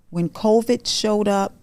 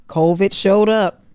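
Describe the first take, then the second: First: Said in the usual way. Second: Covid showed up punched louder, showed falling hard; louder repeat. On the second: Real, not acted. Telling viewers covid hit, loud emphatic repeat.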